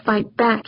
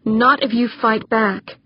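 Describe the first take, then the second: First: Mild scornful growl; understated disgusted growl. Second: Slow, firm insistence; measured, resolute encouragement. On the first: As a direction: throw the advice back in disgust. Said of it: "he growled". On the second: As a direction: urge them firmly to resist. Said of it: "she said firmly". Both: A narrator's reading.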